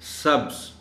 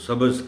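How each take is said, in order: First: No vowel is heard between 'b' and 'z'. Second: An 'a' vowel is heard between 'b' and 'z'. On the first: The speaker calls it right. "जिसके दरमियानी हर्फ पर जज़्म होता है" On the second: The speaker calls it wrong. "हम आमतौर पर ज़बर इस्तेमाल कर जाते हैं"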